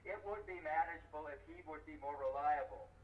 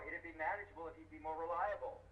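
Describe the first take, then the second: First: Every word is fully and separately pronounced. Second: The words are contracted and run together quickly. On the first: The speaker calls it wrong. "It takes twice as long to say it that way" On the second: The speaker calls it right. "doubles the speed when you use those contractions"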